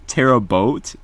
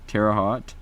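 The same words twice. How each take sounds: First: "Terra Boat" with a long o, rising in question; corrected pronunciation, questioning. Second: Terre Haute with "Haute" said like "hot"; questioned pronunciation. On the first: Streamer trying a corrected town name, "Terra Boat" with long o, doubtful. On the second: Streamer unsure of a town's name, "Terre Haute" said as "terra hot". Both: Shown as a demonstration. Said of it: "it's how to pronounce it".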